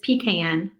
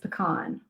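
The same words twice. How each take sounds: First: Pecan is said the Virginia way. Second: Pecan is said the Louisiana way.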